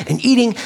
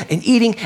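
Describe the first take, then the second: No difference in how they are said.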